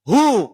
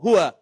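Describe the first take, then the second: First: The word is cut short after its first syllable. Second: The word is said in full with both syllables. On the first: This is the form used when stopping on the word. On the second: This is the full form of the word.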